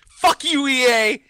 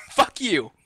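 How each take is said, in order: First: High, fed-up swear; worn-out customer cursing EA, pitched high; exasperated curse. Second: Giggling Fuck you, quieter; laughing curse. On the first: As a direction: spit it out at the company, voice jumping up. Venting at EA after seven hours. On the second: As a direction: let the anger dissolve into laughter on Fuck you. Repeats curse while laughing. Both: Real, not acted.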